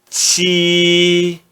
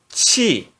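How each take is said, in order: First: The syllable is said in the first tone. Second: The syllable is said in the fourth tone. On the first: "No primeiro tom" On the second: "E no quarto tom"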